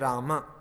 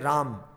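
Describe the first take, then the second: First: The word ends on a short vowel sound. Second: The word ends on a consonant sound. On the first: The speaker calls it right. "you say Rama" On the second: The speaker calls it wrong. "You don't say Ram"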